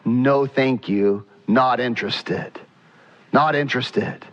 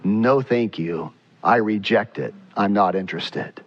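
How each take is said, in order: First: A lightly voiced God declining the offering; a hint of God's firm dismissal; God's calm refusal. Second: A lightly voiced God rejecting it; a hint of God closing the door; God's firm refusal. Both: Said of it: "And God says".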